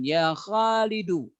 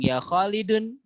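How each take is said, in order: First: The name ends in a plain u sound. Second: The name ends in an un sound. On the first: The speaker calls it right. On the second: The speaker calls it wrong.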